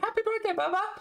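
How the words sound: It is said in a cooing baby-talk voice.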